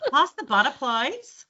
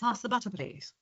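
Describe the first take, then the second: First: It is said in a broad Australian accent. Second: It is said in a British English accent.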